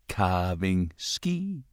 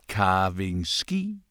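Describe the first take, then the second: No difference in how they are said.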